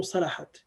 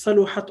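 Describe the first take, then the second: First: صلحت as salahat, with a in the middle; alternative verb form. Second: صلحت as saluhat, with u in the middle; alternative verb form. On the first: Showing students the other reading, صلحت with middle a. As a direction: pronounce صلحت "sa-LA-hat". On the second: Showing students a permitted reading, صلحت with middle u. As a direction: pronounce صلحت "sa-LU-hat". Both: Shown as a demonstration. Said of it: "it can be made in many ways".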